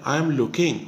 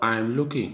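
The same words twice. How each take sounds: First: "I am looking" with "I am" said as two full separate words; full form, "am" fully sounded. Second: "I am looking" said as contracted "I'm looking", one syllable; contracted form, "I'm" run into "looking"; short form. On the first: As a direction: say "I am" uncontracted, each word clear. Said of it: "एक तरफ full form है". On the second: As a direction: squeeze "I am" into a quick "I'm". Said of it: "एक तरफ short form है". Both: Shown as a demonstration.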